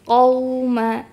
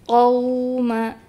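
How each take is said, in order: Both takes have the same delivery.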